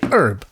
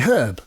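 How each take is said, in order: First: It is said with a silent h, American style. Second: It is said with a pronounced h, English style. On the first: This is how Americans say it. "In America you say herb" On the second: This is how the English say it. "In England we say herb. Because there's a fucking H in it"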